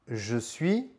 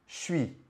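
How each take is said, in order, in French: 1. La voyelle de 'je' est bien prononcée. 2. La voyelle de 'je' n'est pas prononcée.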